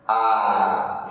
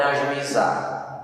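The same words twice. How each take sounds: First: "ajuizar" split slowly into a, ju, i, zar with pauses; very slow syllable-by-syllable "ajuizar", a... ju... i... zar; separated syllables. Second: Said in the usual way. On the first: Shown as a demonstration. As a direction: leave a clear gap after each syllable of "ajuizar". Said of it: "Se você separar essas sílabas". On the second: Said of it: "Olha o nome".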